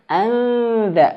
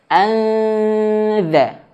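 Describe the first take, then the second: First: The consonant after the n sounds th-like. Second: The consonant after the n is a plain z. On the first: The speaker calls it right. "tapi anza, lidahnya dikeluarin" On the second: The speaker calls it wrong. "Jangan hanya sekedar anza"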